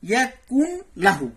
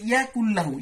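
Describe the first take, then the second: First: The n is pronounced separately before the l. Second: The n merges fully into a doubled l. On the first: "ওখানে লেখা আছে ইয়া কুন লাহু" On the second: "এরকম আছে ইয়া কুল্লাহু"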